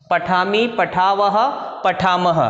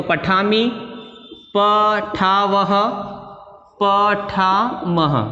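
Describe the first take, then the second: First: Said in the usual way. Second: Each form drawn out very slowly; slow recitation. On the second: Shown as a demonstration. Teacher slowly spelling out forms for pupils, drawn out. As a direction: stretch every syllable so pupils can copy it. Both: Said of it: "ये helping verb ऐसे कैसे लेके आ जाएंगे".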